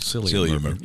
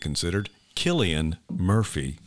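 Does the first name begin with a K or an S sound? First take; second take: S; K. First: The first name starts with a soft S sound. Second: The first name starts with a hard K sound. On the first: The speaker calls it wrong. "which we've always called Cillian Murphy" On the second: The speaker calls it right. "It's like Celtic"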